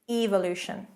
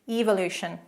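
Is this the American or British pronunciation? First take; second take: British; British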